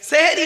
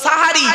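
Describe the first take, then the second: First: The first vowel is an 'e' sound. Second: The first vowel is an 'a' sound. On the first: The speaker calls it wrong. "সেহেরি নয়" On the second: The speaker calls it right. "শব্দটা সাহারি"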